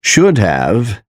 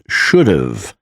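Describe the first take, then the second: First: Said in the usual way. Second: "should've" as SHOOD-uv; reduced "should've", h dropped; contracted should've. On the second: Shown as a demonstration. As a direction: run "should've" together with a weak "uv". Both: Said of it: "is pronounced as".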